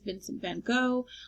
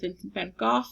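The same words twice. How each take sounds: First: The name is said with English-style sounds. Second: The name is said with Dutch-style sounds.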